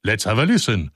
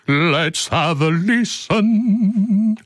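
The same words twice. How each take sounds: First: Said in the usual way. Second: High pitched and stretched way out; high, very slow drawl. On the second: Shown as a demonstration. Host hamming up a retake, high and slow. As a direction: drag the words out up high. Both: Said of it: "repeated takes".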